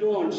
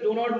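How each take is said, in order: First: It is said as one contracted word. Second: It is said as two full words. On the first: The speaker calls it right. "সে বলে ডোন্ট" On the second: The speaker calls it wrong. "ডো নট বলে না"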